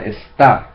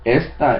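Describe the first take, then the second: First: The stress is on the last syllable. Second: The stress is on the first syllable. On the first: "there is an accent on the last A" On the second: "I didn't say"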